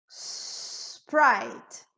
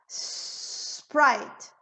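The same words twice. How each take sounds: The two takes are said the same way.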